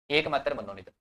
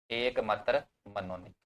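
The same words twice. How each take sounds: First: Said in the usual way. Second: Measured, drawn-out words; unhurried, with a gap between words; slow dictation. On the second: Real, not acted. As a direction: dictate slowly for note-takers. Dictating slowly as students write.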